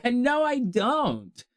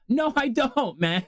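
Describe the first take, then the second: First: Mock-weary no, spoken slowly; dragging the refusal out; slow drawn-out no. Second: Said in the usual way. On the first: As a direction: stretch each word very slowly. Same answer, drawn out.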